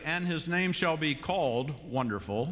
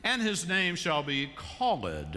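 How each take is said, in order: First: "called" said as one syllable, kɔld; plain "called" with no extra syllable; "called" in one beat. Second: "called" sung as two syllables, call-ed; "called" stretched into call-ed, slowly; Messiah-style "call-ed". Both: Shown as a demonstration. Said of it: "it adds that extra syllable".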